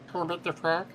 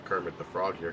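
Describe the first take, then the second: First: It is said in a Kermit the Frog voice. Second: It is said in his normal voice.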